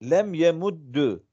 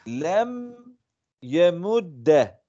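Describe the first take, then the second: First: The last word ends with a u vowel. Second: The last word ends with an a vowel. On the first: The vowel follows the verb's middle letter. "Aynel fiiline tabi olarak yemuddu okudum" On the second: The lightest vowel was chosen. "Fetha ehafful hareket olduğundan dolayı okudum"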